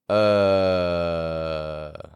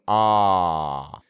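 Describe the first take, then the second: First: The vowel is made with the jaw slightly open. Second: The vowel is made with the jaw wide open. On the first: The speaker calls it right. "we just open your mouth lightly and say" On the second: The speaker calls it wrong. "We're not opening your teeth up wide"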